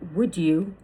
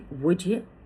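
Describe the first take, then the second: First: The d and y sounds stay separate. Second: The d and y blend into a j sound.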